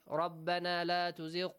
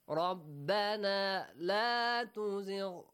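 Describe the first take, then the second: First: It is said plainly, without feeling. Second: It is said with heartfelt, pleading feeling. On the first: It just states the meaning of the request. "if you read it like" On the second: The speaker is truly begging for the request. "if you read it this way, ... the meaning that it touches our heart"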